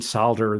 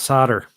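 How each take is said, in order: First: The word is said in a British way. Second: The word is said in a non-British way. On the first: "I guess you mean solder, though. Uh, being British and all" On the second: "the chat agrees that it's solder"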